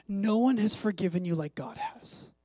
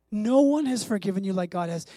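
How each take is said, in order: First: Said in the usual way. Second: "No" hit hard, whole line louder; stress on "No". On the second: Shown as a demonstration. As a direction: punch the "No" in "No one has forgiven you".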